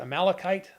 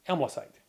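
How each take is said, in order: First: The word is said with an 'Amal' start. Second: The word is said with an 'Aml' start. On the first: "anytime I see the word Amalekite" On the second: "I will pronounce it as Amlecite"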